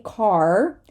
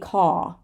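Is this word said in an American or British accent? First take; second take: American; British. First: The final r sound is pronounced. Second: The final r sound is dropped. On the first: "an American would say car" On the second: "a British would say caw"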